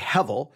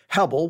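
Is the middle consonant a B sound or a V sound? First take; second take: V; B. First: The middle consonant is a V sound. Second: The middle consonant is a B sound. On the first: The speaker calls it right. "the B sound gets a V sound. So at best, you would say Hevel" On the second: The speaker calls it wrong. "some may say refer to it as Hebel, which would be wrong"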